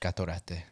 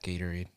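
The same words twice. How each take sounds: First: It is said with a Spanish accent. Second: It is said with a plain English accent.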